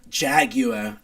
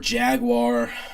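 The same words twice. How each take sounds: First: It is pronounced with a British accent. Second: It is pronounced with an American accent.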